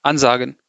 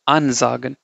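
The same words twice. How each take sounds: First: Said in the usual way. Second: AN leaned on and set apart from sagen; emphasize the an in ansagen; stress on AN. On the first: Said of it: "you don't say it like". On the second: Shown as a demonstration. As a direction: ansagen with a clearly stressed first syllable. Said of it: "you have to emphasize the an part".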